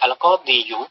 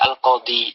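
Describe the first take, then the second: First: The word ends with a final 'yu' sound. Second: The word ends on 'i' without final 'u'. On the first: The full case ending is pronounced. The speaker calls it wrong. "dengan menjaga makhrajnya, maka ini berat" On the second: The case ending is only implied, making it lighter. The speaker calls it right. "dhammahnya tidak dibaca"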